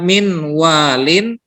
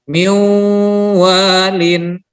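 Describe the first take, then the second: First: The n is pronounced before the w. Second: The n merges into a nasalized w. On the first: The speaker calls it wrong. "bukan min walin" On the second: The speaker calls it right. "langsung nunnya hilang masuk ke huruf waw"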